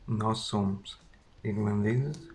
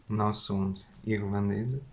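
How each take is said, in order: Both takes have the same delivery.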